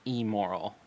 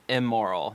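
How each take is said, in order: First: The first vowel is a short 'ih' sound. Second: The first vowel is an open 'eh' sound. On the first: The speaker calls it right. "not immoral" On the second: The speaker calls it wrong. "like E M M"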